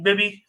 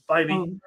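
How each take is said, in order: First: The first syllable sounds like 'bib'. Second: The first syllable sounds like 'bye'. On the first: The speaker calls it wrong. "been saying Bibby. It looked like Bibby" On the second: The speaker calls it right. "He's a Southern California, uh, Tanner Bybee"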